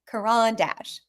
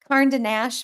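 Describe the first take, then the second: First: The name is said as 'karan dash'. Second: The name is said as 'carn de nash'. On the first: The speaker calls it right. "not Karn de Nash" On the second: The speaker calls it wrong. "now that I said it wrong"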